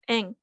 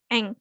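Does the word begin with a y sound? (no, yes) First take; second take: no; no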